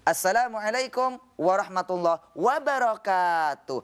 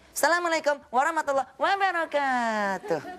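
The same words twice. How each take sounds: First: It is said in a preacher's sermon tune. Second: It is said in a kindergarten teacher's singsong.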